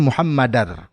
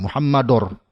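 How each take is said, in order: First: The vowel before r is light and open. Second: The vowel before r is heavy and rounded. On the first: The speaker calls it right. "Seharusnya Muhammadar" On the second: The speaker calls it wrong. "terpengaruh dengan tafkhimnya huruf ro"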